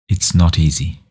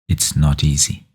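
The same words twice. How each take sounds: Both takes have the same delivery.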